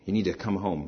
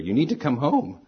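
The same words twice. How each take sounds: First: It is said calmly and quietly. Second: It is said loudly, almost yelled.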